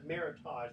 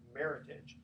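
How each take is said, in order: First: The word does not sound like heritage. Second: The word sounds like heritage. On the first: The speaker calls it wrong. "So I've said Meritage" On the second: The speaker calls it right. "but it's actually Meritage"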